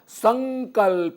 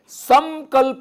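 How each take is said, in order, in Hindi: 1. k से पहले का अनुनासिक 'ng' ध्वनि है। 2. k से पहले का अनुनासिक 'ng' ध्वनि नहीं है। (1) "सही रूप होगा संकल्प, ग आगे, और उसका उच्चारण भी यही होगा" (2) "ऐसा भी लोग कुछ बोलते हैं जो कि अशुद्ध माना जाएगा"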